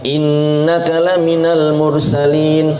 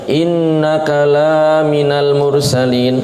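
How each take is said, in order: First: The vowel after the 'l' in 'laminal' is short. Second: The vowel after the 'l' in 'laminal' is long. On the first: You are one of the messengers of God. The speaker calls it right. "kalau seperti ini benar" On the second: You are not a messenger of God. The speaker calls it wrong. "Lamnya yang pendek dibaca pan panjang"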